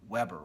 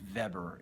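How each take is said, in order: First: The name is pronounced the English way. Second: The name is pronounced the German way.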